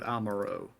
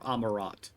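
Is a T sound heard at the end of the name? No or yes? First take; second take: no; yes. First: The name ends without a T sound. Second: The name ends with a clear T sound. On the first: The speaker calls it wrong. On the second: The speaker calls it right.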